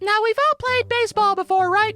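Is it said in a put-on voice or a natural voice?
put-on voice. It is said in a put-on character voice.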